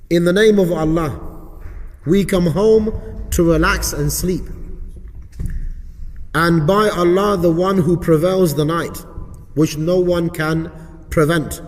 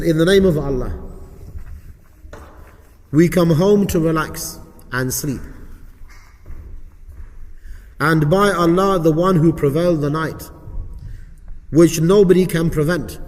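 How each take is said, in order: First: Measured, emphatic prayer reading with short pauses; recited supplication. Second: Dictation pace with long pauses between phrases; slow repeat reading. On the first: Teacher reciting the supplication for students, measured recitation. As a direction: recite it firmly, phrase by phrase. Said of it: "I know it's a little bit quick". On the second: Teacher repeating the supplication so students get it, slow dictation. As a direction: read it out slowly, leaving gaps to follow. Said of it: "I'll read it a bit slowly for you". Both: Shown as a demonstration.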